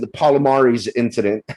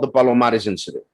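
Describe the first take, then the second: First: The name is said with an American accent. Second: The name is said without an American accent.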